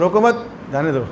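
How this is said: The pause comes right after मत.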